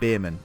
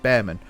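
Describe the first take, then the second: First: The first vowel sounds like in 'beer'. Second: The first vowel sounds like in 'bear'. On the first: This is how a different person with that surname said it. "they pronounced it Beerman" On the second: This is how the driver's name is said. "but this is Bearman"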